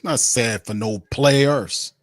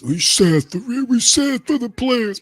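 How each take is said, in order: First: Said in the usual way. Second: High, slow whiny sob-sister voice; mocking high whimper; mock sympathy. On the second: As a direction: squeak it out like a sappy fan pitying players.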